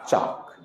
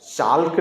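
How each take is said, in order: First: The L sound is silent in the word. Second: The L sound is pronounced in the word. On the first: The speaker calls it right. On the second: The speaker calls it wrong.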